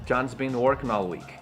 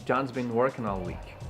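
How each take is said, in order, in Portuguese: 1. As palavras menores são fracas e o 'has' é contraído. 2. As palavras menores são fracas e o 'has' é contraído.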